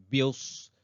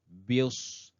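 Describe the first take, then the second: Both takes have the same delivery.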